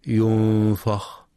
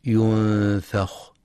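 First: ينفخ with a dark, emphatic fa; wrongly thickened fa in ينفخ; heavy fa error. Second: Slow ينفخ with a thin fa; ينفخ keeping the fa unemphatic; light fa. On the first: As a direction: say ينفخ with a backed "a" after f. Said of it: "بتفخيم الفاء". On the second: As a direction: say ينفخ with a held nasal n and front "a". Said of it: "وينتبه لترقيق الفاء". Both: Shown as a demonstration.

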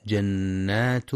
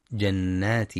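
First: "جنات" read slowly ending in kasra, jannati; slow mistaken "جنات" with kasra on the ta; wrong vowel. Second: "جنات" with doubled n and final damma, jannatu; "جنات" with clear shadda and u ending; correct reading. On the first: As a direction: show the error: "جنات" with a final i vowel. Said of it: "يخطئ بعضهم فيقرأ ... بالكسر". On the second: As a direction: model the right form: "جنات" ending in u. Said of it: "والصواب أنها بالضم". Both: Shown as a demonstration.

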